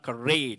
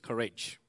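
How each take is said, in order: First: It is said with an Indian English pronunciation. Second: It is said with an American English pronunciation. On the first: The speaker calls it wrong. "it's not courage" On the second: The speaker calls it right. "it's courage. I want to correct you"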